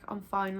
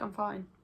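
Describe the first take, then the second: First: It sounds curt and irritated. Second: It sounds relaxed and sincere. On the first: The speaker wants to stop being asked. "Like stop bothering me" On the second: The speaker really is fine. "I'm actually fine"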